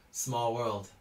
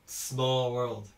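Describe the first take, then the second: No difference in how they are said.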